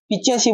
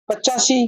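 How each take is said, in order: First: The first vowel is an i sound. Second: The first vowel is an a sound. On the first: The speaker calls it wrong. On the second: The speaker calls it right.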